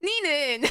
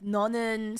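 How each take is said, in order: First: It uses the family's dialect vowel. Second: It uses the standard Korean vowel.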